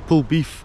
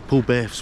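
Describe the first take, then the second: First: The name is said the way Fife locals say it. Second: The name is said the way western locals say it. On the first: This is how people in Fife would say it. "Polbeth sounds what we'd call it in Fife" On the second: This is how people further west would say it. "Polbeth's what they'd call it more to the west"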